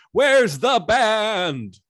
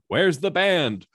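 First: Very loud, high, long-drawn bellow; escalated demanding shout. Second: Loud, high, slow demand; demanding shout. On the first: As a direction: stretch every word into a mock-outraged holler. Mayor's demand repeated, escalated. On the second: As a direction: call it out like an angry mayor at a meeting. Mayor demanding the band at meeting. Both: Acted.

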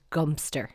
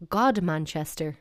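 First: "Gumster" in two syllables; local pronunciation. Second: "Godmanchester" as written, god-man-chester; every syllable of "Godmanchester" sounded; spelling pronunciation. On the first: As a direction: squash the whole name down to GUM-ster. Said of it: "It's called". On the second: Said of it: "you're wrong". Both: Shown as a demonstration.

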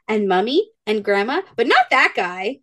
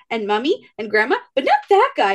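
First: Put-on light child voice. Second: Put-on blunt child voice. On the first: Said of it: "She's like". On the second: Toddler excluding mom's friend from pizza, high blunt child voice. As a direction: insist on it like a stubborn little kid. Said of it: "Reagan goes".

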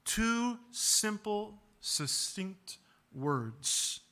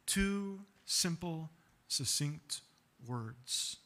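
First: Very slow, each word weighed; deliberate emphasis. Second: Slow and trailing off softer; fading emphasis. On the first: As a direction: spell out the point slowly. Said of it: "slows to stress brevity". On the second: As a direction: let the point fall away quietly. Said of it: "repeated, fading". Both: Shown as a demonstration.

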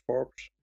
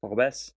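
First: "Forbes" as one syllable; trying out a pronunciation. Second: "Forbes" with an audible e, like for-BESS; Portuguese-style pronunciation. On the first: Fan unsure how to pronounce the new player's name, trying it out. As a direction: say "Forbes" the English way, in one beat. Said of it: "spreek je zijn naam uit?". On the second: Fan guessing at the player's Portuguese name, trying a foreign pronunciation. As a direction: give "Forbes" a second syllable, louder. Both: Shown as a demonstration.

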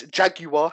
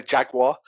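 First: "Jaguar" as JAG-you-ah, three syllables; British "Jaguar". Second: "Jaguar" as JAG-wahr, two syllables; American "Jaguar". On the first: Shown as a demonstration. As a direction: sound out the U in "Jaguar". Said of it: "how it's spelt". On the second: Retold or imitated. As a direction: put a W sound into "Jaguar". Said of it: "when some Americans say".

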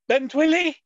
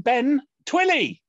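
First: "Ben Twilly" run together, pitched up; "Ben Twilly" high, with no gap; quoted name. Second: "Ben", pause, "Twilly", pitched up; "Ben Twilly" with a careful gap between names; deliberately separated name. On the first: Retold or imitated. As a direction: say "Ben Twilly" as one smutty-sounding phrase. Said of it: "Simo saying". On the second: Shown as a demonstration. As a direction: split "Ben Twilly" clearly into two names. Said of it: "Now you meant".

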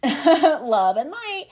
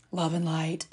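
First: Higher, louder and slow, laughing through it; laughing mockery. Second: Low, soft mock-spiritual murmur; mock serene. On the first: Mocking the fake spiritual crowd, laughing it out loud. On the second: Mocking the fake spiritual crowd, softly and serenely. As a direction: say it like a soft, dreamy platitude.

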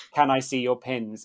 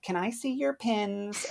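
First: Said in the usual way. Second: Put-on high, drawn-out child's request; kid asking. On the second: Kid asking the cast member to see pins, sing-song child voice. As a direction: lilt it high and slow like a child. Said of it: "they'd be like".

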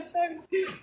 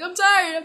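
First: A whimpering, softer mock cry; whiny cry. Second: Said in the usual way. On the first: Girl imitating herself whining to her partner, mock crying. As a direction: whine it like you're about to cry. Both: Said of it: "I'm like".

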